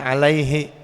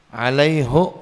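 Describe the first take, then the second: First: The pronoun is said with an 'i' vowel. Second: The pronoun is said with an 'u' vowel. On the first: This is the usual usage. "bukan alaihi" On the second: This is the usage of the people of Hijaz. "itu pakai dhammah"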